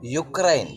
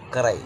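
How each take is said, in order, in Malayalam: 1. ഈ വാക്ക് 'you' ശബ്ദത്തിലാണ് തുടങ്ങുന്നത്. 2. ഈ വാക്ക് 'oo' ശബ്ദത്തിലാണ് തുടങ്ങുന്നത്. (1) "പ്രൊണൗൺസിയേഷൻ" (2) "ദേ പ്രൊണൗൺസ്"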